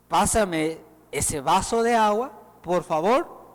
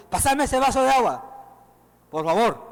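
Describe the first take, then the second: First: Gentle polite request. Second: Curt demanding. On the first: Preacher shows a kind tone for a glass of water. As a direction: ask kindly for the glass of water. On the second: Preacher shows a harsh tone for a glass of water. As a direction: pitch higher and a bit louder, barked command. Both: Shown as a demonstration. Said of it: "Hay diferencia en tono de voz".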